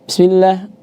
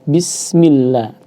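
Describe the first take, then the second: First: The word is said quickly, rushing through it. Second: The word is said at an unhurried, moderate pace. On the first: The speaker calls it wrong. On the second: The speaker calls it right. "jangan terburu-buru"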